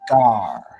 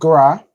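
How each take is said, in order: First: The vowel comes before the r sound. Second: The vowel comes after the r sound. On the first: The speaker calls it right. "but Gar" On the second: The speaker calls it wrong. "Not Gra"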